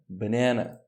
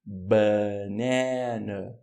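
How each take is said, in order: First: Said in the usual way. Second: "Banana" very slow, stretched middle syllable; syllable-by-syllable stress demo. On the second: Shown as a demonstration. ("Banana" muito devagar, sílaba do meio alongada) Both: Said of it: "indica a sílaba tônica".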